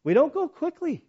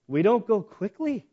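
First: "We don't go quickly" pitched high for emphasis; emphatic repeat. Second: Said in the usual way. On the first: Real, not acted. Tour leader on the Holocaust Memorial, "We don't go quickly" high and emphatic. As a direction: drive home "We don't go quickly" in a higher voice. Repeats it higher to drive it home.

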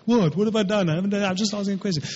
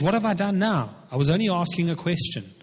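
First: Higher, hurried mock kid protest; imitating little kids. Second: Said in the usual way. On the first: Preacher mimicking his little kids' response, mock childish protest. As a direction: rattle it off like a child protesting innocence. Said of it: "exactly how my little kids respond". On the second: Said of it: "And David says".

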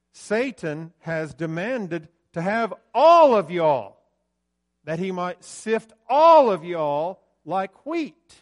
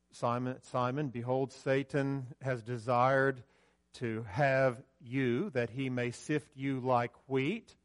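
First: "y'all" thundered, slow and much louder; loud emphatic y'all. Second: Said in the usual way. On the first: Shown as a demonstration. Preacher showing Jesus spoke to all disciples, slow loud emphasis. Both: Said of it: "It's the plural word for "you".

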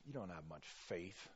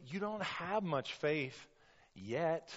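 First: Low, soft dismissive reproach; muttered disapproval. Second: Higher, slower line, pausing before a separate "yet"; encouraging YET. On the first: Preacher showing what Jesus is not saying, muttered disapproval. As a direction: mutter it down at them, written off. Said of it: "what I don't hear him saying". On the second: Preacher as Jesus encouraging Peter, "yet" set apart after a pause. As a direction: hold back "yet", then set it apart hopefully. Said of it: "He's saying". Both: Acted.

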